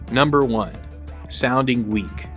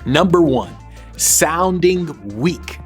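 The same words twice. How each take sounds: First: It is said with weak, low energy. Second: It is said with strong, confident energy. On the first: The speaker lacks confidence. The speaker calls it wrong. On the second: The speaker shows confidence. The speaker calls it right.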